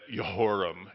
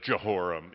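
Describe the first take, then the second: First: The name begins with a Y sound. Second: The name begins with a J sound. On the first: It sounds like a scholar's pronunciation. "all the J's are Y's" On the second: It is the familiar everyday pronunciation. "instead of Jehoram"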